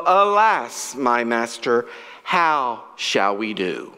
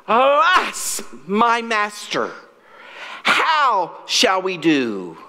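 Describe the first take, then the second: First: Said in the usual way. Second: A raised, alarmed cry that slows into a plea. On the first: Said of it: "His words were in the Bible". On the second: A narrator's reading. Servant crying to his master in mild alarm. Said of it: "cried out".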